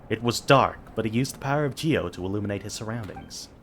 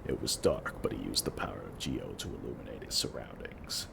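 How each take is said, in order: First: It is spoken as a D-Luke impression. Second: It is spoken in a corpse-like voice.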